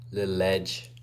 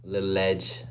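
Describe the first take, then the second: No difference in how they are said.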